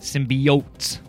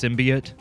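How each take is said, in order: First: The last syllable sounds like 'oats'. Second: The last syllable does not sound like 'oats'. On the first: This is how the film says it. "like oats, OATS" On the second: This is how it is usually heard. "I've always heard it pronounced symbiote"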